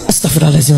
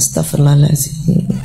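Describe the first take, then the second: First: The phrase is said quickly and hurriedly. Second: The phrase is said slowly and calmly. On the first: The speaker calls it wrong. "Terlalu buru-buru" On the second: The speaker calls it right. "tumak nina pelan-pelan"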